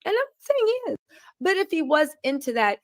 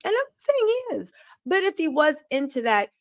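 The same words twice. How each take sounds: First: Sarcastic repeat. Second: Sarcastic aside. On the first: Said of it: "sarcastic aside, said again". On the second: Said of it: "sarcastic aside, then repeated". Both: Real, not acted.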